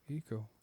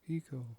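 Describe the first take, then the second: No difference in how they are said.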